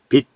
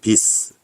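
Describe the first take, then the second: First: The final consonant sounds like a stopped t. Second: The final consonant sounds like an s. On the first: The speaker calls it right. "똑같이 bit, bit, bit 해서 대표음 디귿으로 발음합니다" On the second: The speaker calls it wrong. "이렇게 발음하는 게 아니잖아요"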